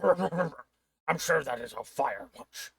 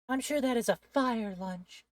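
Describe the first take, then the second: First: It is said in the intended character voice. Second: It is said in a different, unintended voice.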